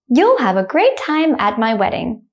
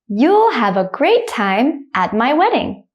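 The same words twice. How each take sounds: First: The sentence is spoken quickly. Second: The sentence is spoken slowly. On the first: "the second time I will say it quickly, like a native speaker" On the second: "The first time I will say it slowly"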